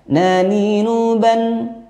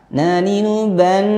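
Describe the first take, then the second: First: The consonant sound is between held and released. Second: The consonant sound is released too softly. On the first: The speaker calls it right. "tengah-tengah saja" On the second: The speaker calls it wrong. "terlalu dilunakkan"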